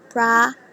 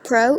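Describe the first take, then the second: First: The vowel sounds like an open 'ah'. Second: The vowel sounds like a rounded 'oh'. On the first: The speaker calls it right. "if we get it American, it will be property" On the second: The speaker calls it wrong. "It's not gonna become pro"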